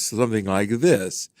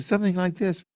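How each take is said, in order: First: The voice has a natural, full resonance. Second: The voice lacks that natural resonance. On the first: "His voice had more natural resonance" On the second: "as opposed to"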